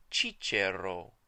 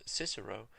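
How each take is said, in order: First: Cicero said slow and loud as CHEE-cheh-ro; ecclesiastical pronunciation. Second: Said in the usual way. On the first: Shown as a demonstration. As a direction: Italianate Cicero, both c's as ch. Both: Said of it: "the Italianate or ecclesiastical pronunciation".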